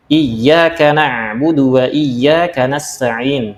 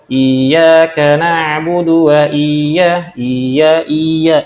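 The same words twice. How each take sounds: First: Slow recitation, doubled Y in IYYAKA; correct recitation with tasydid. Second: Very slow recitation, IYYAKA with a dragged-out I; wrongly lengthened I. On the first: Teacher gives a verse example, slow IYYAKA with doubled Y. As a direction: recite slowly, pressing the Y of IYYAKA. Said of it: "di situ ada tasydid". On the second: Teacher imitates an imam's mistake, IYYAKA with long I. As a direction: stretch the opening I of IYYAKA far too long. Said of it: "i-nya seperti panjang". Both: Shown as a demonstration.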